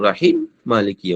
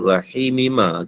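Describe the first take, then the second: First: Rahim ends with a closed m before Maliki. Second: Rahim runs straight on into Maliki. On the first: "yang pentingnya dia kena tutup kat situ" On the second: "Kalau nak sambung"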